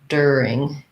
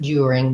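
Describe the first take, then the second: First: The first syllable has a plain 'er' sound. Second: The first syllable has a 'you' sound. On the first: "American English, you're going to hear that as you are as the er sound" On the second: "in British English, you might hear it more like during"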